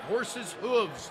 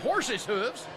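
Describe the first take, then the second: First: It is said in the speaker's normal accent. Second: It is said in a put-on hillbilly drawl. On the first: The speaker calls it wrong. "that's actually quite tough to say" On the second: The speaker calls it right. "Say it in a Mater accent"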